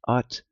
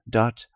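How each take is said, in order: First: The word begins directly with a vowel. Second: The word begins with a d sound. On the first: The speaker is from the northeast. "if you're for the northeast" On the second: The speaker is from Shetland. "if you're for ken Shetland"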